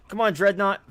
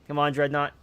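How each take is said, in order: First: Higher, louder cheer on the ship; loud urging. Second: Said in the usual way. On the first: Real, not acted. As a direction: call it out like a coach. Urging his ship in battle.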